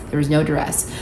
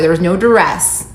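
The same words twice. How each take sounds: First: Softer legal-disclaimer aside; quiet repeat. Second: Said in the usual way. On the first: Shown as a demonstration. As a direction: drop it quietly, as if for the lawyers. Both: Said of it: "Gotta say that for legal reasons".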